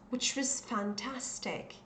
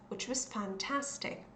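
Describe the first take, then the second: Both takes have the same delivery.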